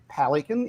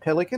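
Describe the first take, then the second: First: It is pronounced the Victorian way. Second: It is pronounced the usual non-Victorian way. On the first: "they say things like ... pelican" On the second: "instead of pelican"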